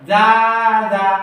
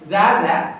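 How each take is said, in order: First: The vowels are drawn out with a melody. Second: The vowels are kept short without a melody. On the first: The speaker calls it wrong. "এরকম সুর দিয়ে বললে টান হয়ে যাবে, ভুল হয়ে যাবে" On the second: The speaker calls it right. "কি বলতে হবে?"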